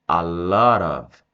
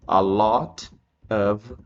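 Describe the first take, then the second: First: The words run together into one linked unit. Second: Each word is said separately and distinctly. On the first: The speaker calls it right. "eu vou falar a lot of" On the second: The speaker calls it wrong. "eu não vou falar assim"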